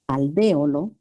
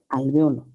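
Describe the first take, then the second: First: The stress is on the second syllable. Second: The stress is on the third syllable. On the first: "Esdrújula"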